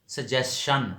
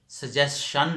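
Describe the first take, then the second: The two takes are said the same way.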